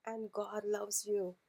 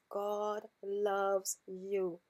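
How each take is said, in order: First: Said in the usual way. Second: God loves you, slow, weight on loves; slow and deliberate, every word landed; emphasized. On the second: Shown as a demonstration. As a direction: lean hard on loves and stretch it out. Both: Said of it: "I must emphasize".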